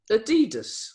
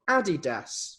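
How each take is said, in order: First: Adidas said a-DEE-dus; Adidas with long stressed DEE; American pronunciation. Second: Adidas said AD-ee-das; Adidas with stress up front, AD-ee-das; British pronunciation. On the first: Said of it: "for some people". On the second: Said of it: "how do you pronounce Adidas or Adidas". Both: Shown as a demonstration.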